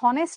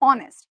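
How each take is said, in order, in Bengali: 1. শব্দটি এইচ ধ্বনি দিয়ে শুরু হয়। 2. শব্দটি স্বরধ্বনি দিয়ে শুরু হয়। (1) "এখন এটা আমরা যদি হনেস্ট বলতাম তাহলে এ হতো হয়তো" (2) "এইচ এর উচ্চারণ এইচ এর মতো না করে"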